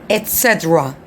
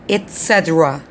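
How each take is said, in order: First: The first word has a clear T sound. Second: The same.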